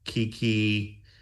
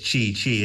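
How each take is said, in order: First: The name starts with a hard K sound. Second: The name starts with a CH sound. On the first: This is the Italian reading of the spelling. The speaker calls it wrong. "if it was Italian, it would be Kiki" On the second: This is the English reading of the spelling. The speaker calls it right. "it's Chi Chi, isn't it?"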